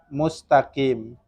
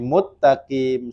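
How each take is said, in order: First: The s sound is kept before the t. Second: The s sound is merged into a double t. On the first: The speaker calls it right. "Sin dan ta itu nggak diidghamkan" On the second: The speaker calls it wrong. "Dia idghamkan jadi muttaqim"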